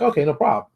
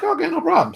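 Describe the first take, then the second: First: Said in the usual way. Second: Much higher, chirpy okay; mock eager agreement. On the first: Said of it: "He's like". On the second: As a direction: play it overly eager and breezy. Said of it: "I'm like".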